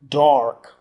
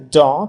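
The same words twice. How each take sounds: First: The R after the vowel is clearly sounded. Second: The R after the vowel is silent. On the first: "in American, the R is hugely pronounced" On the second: "R is not pronounced at all"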